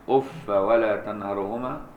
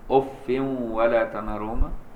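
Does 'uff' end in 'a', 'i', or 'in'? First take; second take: a; in. First: The word ends in -a without nunation. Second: The word ends in -in with nunation. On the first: "بالفتح بغير تنوين" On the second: "المدنيان وحفص هم اللي بينونوا ويكسروا"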